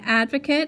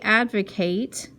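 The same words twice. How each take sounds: First: The last syllable has a weak, reduced vowel. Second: The last syllable rhymes fully with 'Kate'. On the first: It is a noun, a person who supports a cause. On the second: It is a verb, to speak in favor of.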